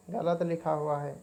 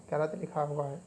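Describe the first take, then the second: No difference in how they are said.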